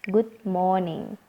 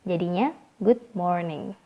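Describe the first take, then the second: First: The R sound in morning is left out. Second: The R sound in morning is clearly pronounced. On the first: "biar kita yang punya lidah agak panjang mudah menyebutkan" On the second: "Sebenarnya sih ada bunyi R di kata morning"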